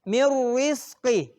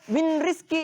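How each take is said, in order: First: The n merges fully into a doubled r. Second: The n is heard clearly before the r. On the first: The speaker calls it right. "Contohnya sekali lagi Bapak bacakan mirrizqi" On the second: The speaker calls it wrong. "Jadi tidak boleh dibaca min rizki, itu salah"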